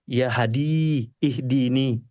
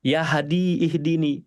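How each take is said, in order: First: "Ya Hadi, ihdini" murmured very slowly, falling; prayer in prostration. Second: Said in the usual way. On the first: Shown as a demonstration. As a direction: draw out "Hadi" in a hushed, falling plea. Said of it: "Habis itu sujud lagi". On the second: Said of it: "ya maha punya petunjuk".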